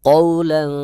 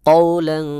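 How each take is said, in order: Both takes have the same delivery.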